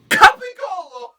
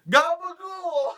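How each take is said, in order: First: It starts with a K and keeps the ending. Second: It starts with a G and drops the ending. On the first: The speaker calls it right. "Just start it" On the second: The speaker calls it wrong. "Capicolo turns into gabagool"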